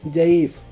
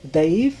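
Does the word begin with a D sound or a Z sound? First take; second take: Z; D. First: The word begins with a z sound. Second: The word begins with a d sound. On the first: "normal में जईफ भी बोलते हैं" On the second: "द्वात की जगह दा बोला जाता है"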